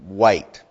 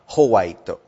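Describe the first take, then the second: First: It is one syllable starting with a W sound. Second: It is three syllables with added H and vowels. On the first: The speaker calls it right. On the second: The speaker calls it wrong. "not Hawaito"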